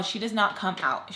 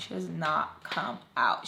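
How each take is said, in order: First: Said in the usual way. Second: Slow, separated "not come out"; emphatic repeat. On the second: Real, not acted. Narrator stressing the long wait, slow emphatic "not come out". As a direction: set "not", "come" and "out" apart, softer.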